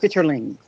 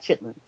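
First: The word is said in full, three syllables. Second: The word is shortened to two syllables. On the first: This is the name printed on the store label. "it will say chitterlings" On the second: This is how the speakers usually say it. "like we're pronouncing them"

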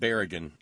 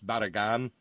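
First: The first syllable sounds like 'berry'. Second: The first syllable sounds like 'bar'. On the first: The speaker calls it wrong. "I said Berrigan as if she was maybe one of those 10,000. As if she was maybe Irish" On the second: The speaker calls it right. "I'm guessing it's Barragan"

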